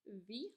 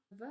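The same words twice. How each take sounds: First: Said in the usual way. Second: "V" as short vuh; isolated "vuh" for "V"; letter sound demo. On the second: Shown as a demonstration. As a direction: say "V" as the first sound of van. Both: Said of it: "makes a V sound".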